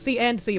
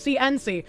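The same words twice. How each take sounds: First: The middle word ends with an audible d. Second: The middle word is a bare n sound. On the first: "You can hear me say the D when I'm saying C and C" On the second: "but I'm saying C and C"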